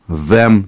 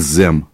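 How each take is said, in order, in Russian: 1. У первого звука язык между зубами. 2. У первого звука язык не между зубами. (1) "Язык между зубов" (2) "не them"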